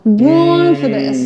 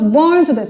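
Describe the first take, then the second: First: The vowel in 'born' is slowly drawn out. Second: The vowel in 'born' is short and plain. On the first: "she slowly opens up that vowel" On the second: "she's not like"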